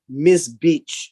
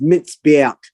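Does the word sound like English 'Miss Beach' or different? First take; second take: like English; different. First: It sounds like the English words 'Miss Beach'. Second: It does not sound like English 'Miss Beach'. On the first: The speaker calls it wrong. "when you read it in English, it's like Miss Beach. It's that's not how it's pronounced" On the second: The speaker calls it right. "It's mitzbeach"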